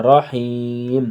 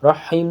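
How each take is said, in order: First: رحیم with a deep throaty ح, drawn out slowly; رحیم said slowly with a strong ح from the throat; رحیم with a clear ح, long and slow; correct pronunciation. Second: رحیم with a plain h sound, the wrong way; رحیم with a light h, not the throaty ح; wrong pronunciation. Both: Shown as a demonstration. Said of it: "رحیم نہیں کہنا".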